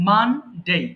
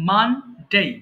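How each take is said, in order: Both takes have the same delivery.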